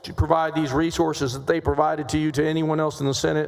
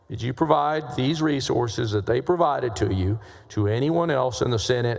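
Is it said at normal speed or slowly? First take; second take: normal; slowly. First: It is said at a normal pace. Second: It is said more slowly.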